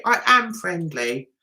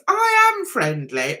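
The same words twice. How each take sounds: First: I am friendly, weight on am; stress on AM. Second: I am friendly, weight on I; stress on I. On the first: Insisting to viewers she is friendly, stress on am. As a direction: lean on the word am in I am friendly. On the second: Telling viewers she is friendly, stress on I. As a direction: lean on the word I in I am friendly. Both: Shown as a demonstration.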